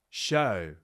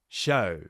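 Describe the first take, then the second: Both takes have the same delivery.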